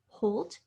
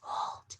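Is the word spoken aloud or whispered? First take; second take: spoken aloud; whispered. First: The word is spoken in a normal voice. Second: The word is whispered without full voice.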